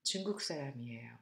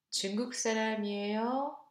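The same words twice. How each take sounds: First: 중국 사람이에요 said low and quick, falling flat as a statement; falling answer. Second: 중국 사람이에요 rising toward the end as an open question. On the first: Teacher giving the model answer to the exercise, falling tune. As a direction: drop 중국 사람이에요 down like a firm answer. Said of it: "go down now in the second choice". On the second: Teacher asking the first choice of an exercise question, rising tune. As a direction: lift 사람이에요 upward like asking. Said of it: "intonation goes up in the first choice". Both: Shown as a demonstration.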